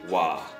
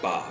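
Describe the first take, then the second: First: The syllable begins with a w sound. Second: The syllable begins with a b sound. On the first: The syllable stands second or third in the word. "when ba is a second or third syllable, okay, then it gets pronounced as the sound wa" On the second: The syllable stands first in the word. "normally ba is pronounced just like that"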